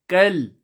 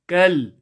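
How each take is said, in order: Both takes have the same delivery.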